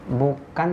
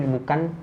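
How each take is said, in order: Both takes have the same delivery.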